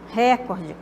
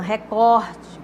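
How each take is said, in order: First: The stress is on the first syllable. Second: The stress is on the second syllable. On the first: The speaker calls it wrong. "como se fosse uma proparoxítona" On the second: The speaker calls it right. "Mas é uma paroxítona"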